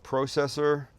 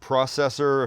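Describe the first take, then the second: First: It is said with a British pronunciation. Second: It is said with an American pronunciation.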